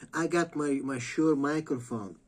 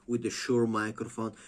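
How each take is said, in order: First: Higher, louder, self-important mock voice; mock pompous podcaster bragging about his gear; mocking a serious podcaster. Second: Said in the usual way. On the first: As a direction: puff it up like a vain host. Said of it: "he's like".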